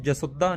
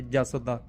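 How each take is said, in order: First: ਜਸੁਦਾ with a full "u" and weighted "dda"; misread ਜਸੁਦਾ. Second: ਜਸ ਦਾ with only a slight rounded vowel after "s"; light aunkar touch. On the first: Teacher showing what not to read, ਜਸੁਦਾ with heavy "sud-daa". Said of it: "ਉਹਨੂੰ ਜਸੁਦਾ ਨਹੀਂ ਪੜ੍ਹਨਾ". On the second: Teacher modelling the right reading, ਜਸ ਦਾ with a light aunkar. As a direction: say ਜਸ ਦਾ as "jas-o-daa", barely touching the "o". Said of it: "ਥੋੜ੍ਹਾ ਜਿਹਾ ਔਂਕੜ touch ਜਿਹਾ". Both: Shown as a demonstration.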